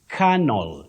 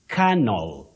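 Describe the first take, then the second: No difference in how they are said.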